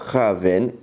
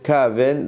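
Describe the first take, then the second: First: The word begins with a raspy ch sound. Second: The word begins with a hard k sound. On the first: The speaker calls it wrong. "et pas Cha'aven" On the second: The speaker calls it right. "il faudra bien dire Ka'aven"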